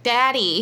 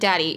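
First: It is said in a weird put-on voice. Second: It is said in a plain, normal voice.

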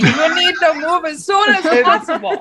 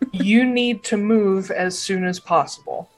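First: It is said in a ridiculous put-on accent. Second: It is said in a normal voice.

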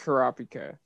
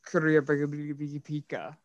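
First: The name is said with its usual few syllables. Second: The name is stretched out with extra syllables. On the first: This is how most people say it. "That's how, like, the world" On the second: This is how the creator says it. "Legit, like, 6 extra syllables"

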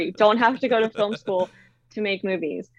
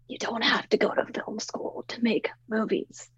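First: It is said more loudly and forcefully. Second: It is said at a normal volume.

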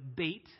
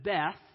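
First: The word ends with a 't' sound. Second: The word ends with a 'th' sound. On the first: The speaker calls it right. "Technically, we should pronounce it Beit" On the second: The speaker calls it wrong. "it says Beth"

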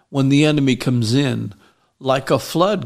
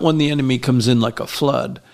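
First: There is a break after 'comes in'. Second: It runs on with no break after 'in'.

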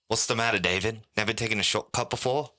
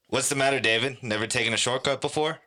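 First: It is said in an imitated British accent. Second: It is said in the speaker's ordinary accent. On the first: "That was my best impression of that" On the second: "I don't know if I should say it in the accent either"

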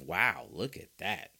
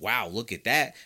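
First: It is said with dismayed, disbelieving disapproval. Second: It is said with amazed, admiring excitement. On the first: The play was a bad mistake. "But he's also showing you flashes of" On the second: The play was impressive. "He's showing you flashes of"

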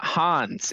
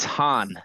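First: The name ends with an s sound. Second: The name ends without an s sound. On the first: The speaker calls it wrong. "It's not Hans" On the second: The speaker calls it right. "It's Han"

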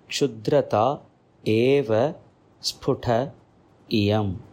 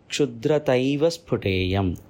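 First: The words are said separately, each one distinct. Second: The words are merged together into two joined words. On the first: "It is split in this manner" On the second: "When we pronounce it joining this, it goes like this"

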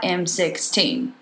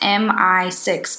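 First: It is said as the letter M, then sixteen. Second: It is said as the letters M, I, then six. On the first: The speaker calls it wrong. "not M16" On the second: The speaker calls it right. "it's MI6, guys"

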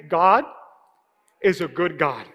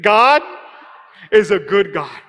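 First: It is said in a plain, ordinary way. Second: It is said with strong, emphatic conviction. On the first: "Can you say that with me?" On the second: "now say it like you believe it"

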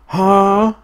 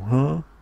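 First: It is said very loudly, like a honk. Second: It is said at normal, quiet volume.

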